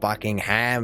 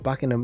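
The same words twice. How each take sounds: First: The last syllable is a full, stressed 'ham'. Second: The last syllable is short and reduced. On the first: The speaker calls it wrong. "It's not a ham at the end" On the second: The speaker calls it right. "You just don't have to put the emphasis on the ham"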